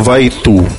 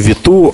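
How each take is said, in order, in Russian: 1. Первый слог звучит как 'vye'. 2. Первый слог звучит как 'vee'. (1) "а Вайту, по аналогии с Wi-Fi" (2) "как надо произносить не Vitu"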